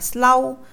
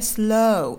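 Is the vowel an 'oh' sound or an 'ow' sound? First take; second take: ow; oh. First: The vowel sounds like Vietnamese 'âu', an 'ow'. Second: The vowel is a rounded English 'oh' glide. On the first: The speaker calls it wrong. "đừng đọc là slow" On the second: The speaker calls it right. "Ví dụ như slow"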